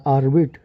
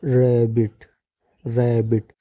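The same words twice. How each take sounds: First: "आर्बिट" starting on the letter name R, "ar-bit"; wrong pronunciation. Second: "रैबिट" starting on a rolled "ra" sound, "rae-bit"; teacher's drawn-out, deliberate "रैबिट"; correct pronunciation demo. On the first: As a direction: misread rabbit as "आर्बिट", letter name first. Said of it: "आर्बिट ऐसे नहीं होगा". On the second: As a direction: model "रैबिट" carefully, r sound first, not "ar". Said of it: "रा से start". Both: Shown as a demonstration.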